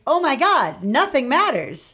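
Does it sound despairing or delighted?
delighted. It sounds delighted and liberated.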